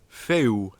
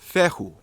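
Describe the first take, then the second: First: The vowels run together with no h sound. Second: An h sound separates the two vowels. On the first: It is the true Halion form. "without the H" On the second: It is an older, archaic form. "if you pronounce it with the H"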